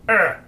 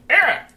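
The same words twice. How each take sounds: First: Loud, high pained yelp; short acted yell of pain; cry of pain. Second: Very high, loud squawk; piercing acted cry of pain; dwarf's pained cry. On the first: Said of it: "crawls out in pain down the hall". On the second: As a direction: yelp in pain, high and sharp. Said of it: "you hear the dwarf call out in pain".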